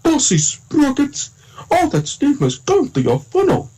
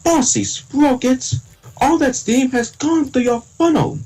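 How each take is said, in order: First: Very high Thomas voice, slow to start; Eddie Glenn. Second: Very high, slow Thomas impression; own Thomas voice. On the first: Second take for friends, Eddie Glenn Thomas voice. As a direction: pitch it way up, drawing out the name. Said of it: "now here's my Eddie Glenn voice". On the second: Showing friends own version of Thomas, Thomas voice. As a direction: stretch each word out in a high engine voice. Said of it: "let me try my voice". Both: Shown as a demonstration.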